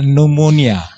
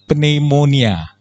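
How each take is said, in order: First: The word has a foreign, non-Indonesian pronunciation. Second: The word has an Indonesian pronunciation. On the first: "Kalau orang asing bilangnya pneumonia" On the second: "Kalau orang Indonesia bilang pneumonia"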